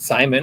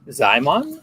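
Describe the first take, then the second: First: The name begins with an s sound. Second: The name begins with a z sound. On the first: This is how the presenter would say it. "which is how I would say it" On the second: This may be how the artist says his own name. "or if he says it Zymon, because it is S Z Y M O N"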